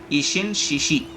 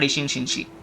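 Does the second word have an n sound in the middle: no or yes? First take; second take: no; yes. First: The second word has no n sound inside. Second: The second word has an added n sound. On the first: The speaker calls it right. "it's Ishin Shishi" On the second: The speaker calls it wrong. "not Ishin Shinshi. People make that mistake"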